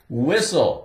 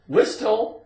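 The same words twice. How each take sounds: First: The word is said with no T sound. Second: The word is said with a T sound. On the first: The speaker calls it right. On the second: The speaker calls it wrong.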